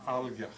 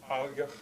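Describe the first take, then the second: Both takes have the same delivery.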